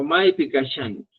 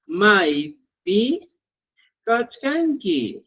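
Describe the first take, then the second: First: "kachkanki" softened to ka-shan-ki; spoken regional pronunciation. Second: "kachkanki" slowly, sounding kach-kan-ki in full; standard spelling pronunciation. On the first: Teacher offers the spoken option, "kachkanki" run together as kashanki. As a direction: say "kachkanki" with sh instead of chk, at normal speed. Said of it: "tu pronunciación va a ser". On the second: Teacher models the question for students, "kachkanki" slow and fully sounded. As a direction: keep the k after ch in "kachkanki", drawn out. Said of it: "según el ministerio, esta es la estandarización".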